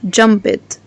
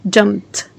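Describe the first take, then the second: First: The ending is not a t sound. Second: The ending is a t sound. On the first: The speaker calls it wrong. "مش jumped" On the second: The speaker calls it right. "you make the t sound"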